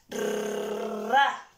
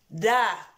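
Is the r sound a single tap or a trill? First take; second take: trill; tap. First: The r is a strong rolled trill. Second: The r is a single soft tap. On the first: "va a sonar más fuerte" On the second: "la que es suave con la vocal A, va a sonar da"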